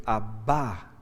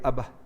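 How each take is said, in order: First: "Abba" with the stress on the final A; acento en la última. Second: Said in the usual way. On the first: Shown as a demonstration. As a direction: lean on the last A of "Abba", drawing it out. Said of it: "con acento en la última A". ("Abba" con acento en la última A) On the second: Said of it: "Si fuera solo padre diría".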